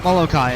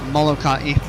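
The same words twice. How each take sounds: First: It is said with an English pronunciation. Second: It is said with a Hawaiian pronunciation.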